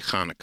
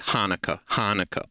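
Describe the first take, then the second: First: The word begins with a guttural throat sound. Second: The word begins with a plain h sound. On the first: "I say Hanukkah. ... so there's a little guttural there" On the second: "lot of Gentiles have difficulties with ch"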